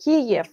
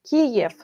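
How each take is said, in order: First: The name is said the Russian way. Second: The name is said the Russian way.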